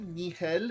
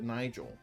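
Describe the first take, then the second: First: The name is said with Spanish sounds. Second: The name is said with English sounds. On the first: "Do you pronounce it Nigel in Spanish" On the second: "or is it Nigel?"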